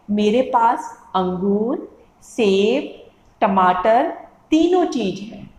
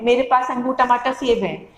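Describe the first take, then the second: First: Slow, a clear pause after "अंगूर", "सेब" and "टमाटर". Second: "अंगूर, टमाटर, सेब" rushed with no pauses at the commas; run together. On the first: Teacher shows students how to pause at commas, slow with pauses. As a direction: pause at every comma, slowly. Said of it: "तो आपको धीरे धीरे बोलना है". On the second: Teacher shows students the wrong way to read commas, run together. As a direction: rattle the list off without stopping. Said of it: "तो आपको कुछ समझ में ही नहीं आएगा". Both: Shown as a demonstration.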